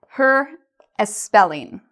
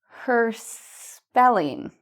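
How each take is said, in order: First: An extra vowel sound comes before 'spelling'. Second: No extra vowel sound comes before 'spelling'. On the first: The speaker calls it wrong. "I've added the E that people pronounce incorrectly" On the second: The speaker calls it right. "Let's do our little linking here"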